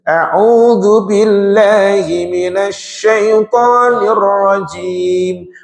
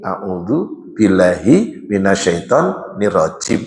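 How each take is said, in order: First: It is recited with the recitation rules applied. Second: It is recited without the recitation rules applied. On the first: The speaker calls it right. "Tajwidnya masuk" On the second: The speaker calls it wrong. "Tidak begini"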